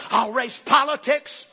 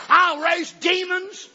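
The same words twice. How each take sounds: First: Slow, louder menacing vow; devil's threat. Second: Higher, louder, very slow vow; devil's threat peaking. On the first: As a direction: spell out the threat slowly. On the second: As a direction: make "demons" the climax of the threat. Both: Retold or imitated. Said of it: "he turns the threat on him".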